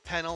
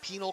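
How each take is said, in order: First: The first syllable sounds like 'pen'. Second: The first syllable sounds like 'pee'. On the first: "penal as in like penalty" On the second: "penal as in like penal colony"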